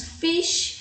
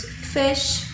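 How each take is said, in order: First: "fish" said as feesh, long ee vowel; "fish" with a long ee, the wrong way; wrong pronunciation. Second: "fish" said with the open English short i; "fish" correctly, short open vowel; correct pronunciation. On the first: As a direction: say "fish" with a Portuguese-style ee. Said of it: "não falamos fish". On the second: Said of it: "falamos fish". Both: Shown as a demonstration.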